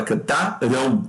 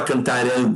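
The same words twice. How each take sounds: First: Cantarão ending in a nasal ão glide; correct diphthong pronunciation. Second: Cantarão with a pure nasal vowel at the end; wrong pronunciation. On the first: Teacher shows students the real form, cantarão with a nasal diphthong. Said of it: "você fala cantarão". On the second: Teacher shows students the form nobody says, cantarão without the diphthong. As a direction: say cantarão without the final glide. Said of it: "Você não fala". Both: Shown as a demonstration.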